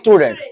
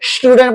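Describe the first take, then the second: First: The word begins with a plain s sound. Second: The word begins with an sh sound. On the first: The speaker calls it right. "इसको simple बोलना है" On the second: The speaker calls it wrong. "इसको स्टूडेंट मत कहना"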